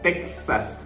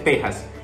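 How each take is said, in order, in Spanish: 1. La x suena como ks. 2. La x suena como una h aspirada. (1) "nosotros la X ahí la utilizamos como Texas" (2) "aquí en México se utiliza como J, y se dice Texas"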